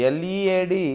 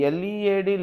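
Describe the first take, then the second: The two takes are said the same way.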